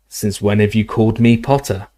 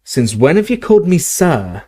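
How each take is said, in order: First: Said in the usual way. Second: "Since when have you called me sir?" asked higher, stress on "called"; a stunned Hagrid asking, pitched up; stunned question. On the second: A narrator's reading. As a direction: ask it in disbelief, voice up. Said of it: "Hagrid looked stunned".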